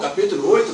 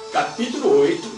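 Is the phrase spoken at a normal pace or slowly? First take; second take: normal; slow. First: It is spoken at a normal pace. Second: It is spoken very slowly.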